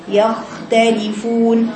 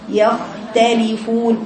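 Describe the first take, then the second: First: The kh sound flows on and is held. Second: The kh sound flows on and is held.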